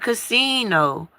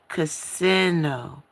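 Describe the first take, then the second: First: The middle syllable is not said like 'sin'. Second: The middle syllable is said like 'sin'. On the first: The speaker calls it wrong. "not casino" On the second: The speaker calls it right. "It's really casino, Main word in there is sin"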